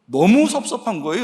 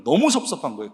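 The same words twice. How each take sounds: First: 너무 pushed higher and louder, rising; 너무 stressed with a lifted, louder pitch; emphatic 너무. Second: Said in the usual way. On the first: Real, not acted. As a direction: lean hard on 너무 with a rising line. Repeats his disappointment.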